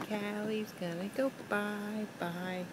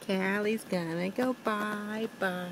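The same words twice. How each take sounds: First: Put-on softly, slowly to a toddler. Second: Said in the usual way. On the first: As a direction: hush it gently and slowly. Repeated much softer to toddler.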